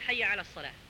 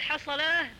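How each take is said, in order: First: The phrase is said fully in three words. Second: The phrase is squeezed into one short word. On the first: The speaker calls it right. "بدلا من" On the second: The speaker calls it wrong. "اختصارا يقول"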